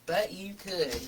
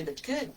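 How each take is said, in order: First: Dry repeat. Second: Playful high lilting rise on could; teasing aside. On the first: Repeating the tease to viewers, dry and knowing. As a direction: say it again deadpan, just between us. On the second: Teasing the viewers about finishing early, lilting and playful. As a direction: tease the viewers that they could stop here. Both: Real, not acted.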